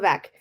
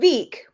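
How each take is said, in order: First: The vowel is short, as in deck. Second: The vowel is long, as in seek. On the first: The speaker calls it right. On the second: The speaker calls it wrong.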